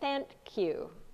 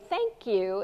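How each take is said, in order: First: The nasal before the k sounds like n. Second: The nasal before the k sounds like ng. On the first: "instead of thank you" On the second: "we say thank you"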